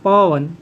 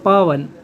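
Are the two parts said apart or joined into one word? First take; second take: joined; joined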